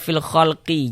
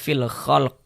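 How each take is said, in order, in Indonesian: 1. Huruf q terakhir diikuti vokal i. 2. Huruf q terakhir dimatikan tanpa vokal setelahnya. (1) "jangan dibaca fil khalqi" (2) "kalau kita berwakaf di huruf qaf kita baca fil khalq"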